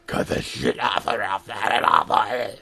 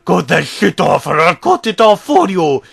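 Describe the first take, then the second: First: It is said in an unusual put-on voice. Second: It is said in the narrator's normal voice. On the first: "in an uh, unusual tone of voice"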